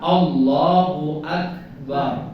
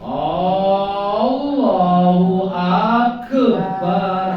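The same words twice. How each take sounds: First: The last syllable's vowel is kept short. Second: The last syllable's vowel is drawn out long. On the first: It means the greatest. The speaker calls it right. "maka yang benar" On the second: It means drums rather than the greatest. The speaker calls it wrong. "barnya dipanjang ke"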